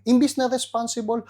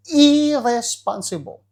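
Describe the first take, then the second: First: Said in the usual way. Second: "irresponsible" slow and louder; stressed irresponsible. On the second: Shown as a demonstration. The pastor contrasting what men should be, hitting irresponsible. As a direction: lean on "irresponsible", draw it out slowly.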